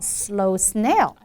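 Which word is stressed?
snail. The stress falls on the word snail. The speaker calls it wrong. "not slow snail"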